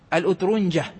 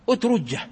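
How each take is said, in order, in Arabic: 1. يأتي صوت النون قبل الجيم المفردة. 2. يأتي صوت الجيم المشددة مباشرة بلا نون. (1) "وقد تخفف ويزاد قبلها نون ساكنة" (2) "وآخره جيم ثقيلة"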